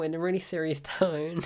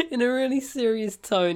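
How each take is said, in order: First: Said in the usual way. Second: Higher, louder, breaking into laughter; cracking up. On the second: Real, not acted. Reviewer introducing a film quote, cracking up. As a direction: try to say it through laughter.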